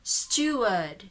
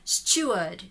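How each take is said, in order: First: The R sound after the vowel is dropped. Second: The same.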